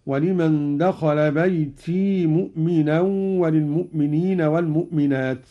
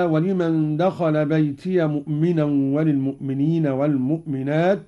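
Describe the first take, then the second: First: بيتي said "baytii", ending in a long i; silent ya. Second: بيتي said "baytiya", ending in a short a; voweled ya. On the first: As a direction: hold the final i of بيتي straight into مؤمنا. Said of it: "أسكن قالون الياء وصلا هكذا". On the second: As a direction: open the ya of بيتي into "ya" before مؤمنا. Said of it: "أسكن قالون الياء وصلا". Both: Shown as a demonstration.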